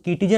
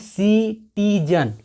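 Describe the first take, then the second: First: The word begins with a k sound. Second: The word begins with an s sound. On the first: The speaker calls it wrong. "इसको हम किटीजन नहीं पढ़ रहे हैं" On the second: The speaker calls it right. "हम इसको पढ़ रहे हैं सिटीजन"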